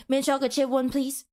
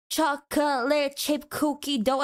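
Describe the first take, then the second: First: "Mint chocolate chip one, please" rattled off; quick order. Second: "chocolate chip cookie dough" laboured out syllable by syllable; mock a slow customer dragging "chocolate chip cookie dough"; holding up the line. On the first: Acted. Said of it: "you said that so freaking quickly". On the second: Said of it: "and holding up the line".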